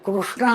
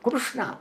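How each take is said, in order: First: The first syllable is said without the 'kru' sound. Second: The first syllable is said with the 'kru' sound. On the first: The speaker calls it wrong. "కృష్ణ అంటున్నారు" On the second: The speaker calls it right. "వాస్తవానికి కృష్ణ"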